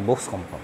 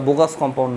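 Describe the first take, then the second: First: Box is said as one tight syllable. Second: Box is split into two syllables with an extra vowel. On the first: The speaker calls it right. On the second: The speaker calls it wrong. "ওটা bogus compound নয়"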